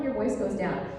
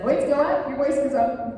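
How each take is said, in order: First: Voice going down. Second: Higher pitch on "your voice goes up", climbing as it goes; voice rising up. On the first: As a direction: let "your voice goes down" drop like a choir director would. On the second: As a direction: let "your voice goes up" lift like a choir director would. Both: Retold or imitated. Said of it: "the choir director says".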